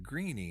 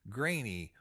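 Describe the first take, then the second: First: The vowel sounds like 'ee'. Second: The vowel sounds like 'ay'. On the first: "some people might pronounce it Greeny" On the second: "the Irish family name of the day is Graney"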